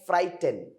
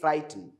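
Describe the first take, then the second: First: The final E vowel is fully sounded. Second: The final E vowel is nearly silent. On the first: The speaker calls it wrong. "Don't say frighten" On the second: The speaker calls it right. "Say frighten. ... this E is silent"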